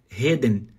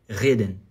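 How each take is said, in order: First: The r sounds breathy, like an h. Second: The r vibrates at the back of the mouth. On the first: The speaker calls it wrong. "se você falar como se fosse R R e faz, faz, falar assim, Reden. Reden. Tá errado" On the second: The speaker calls it right. "A segunda é o sininho"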